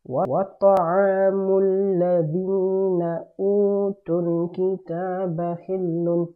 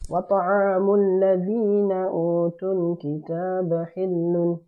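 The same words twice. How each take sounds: First: The phrase is said at a slower pace. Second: The phrase is said at a faster pace.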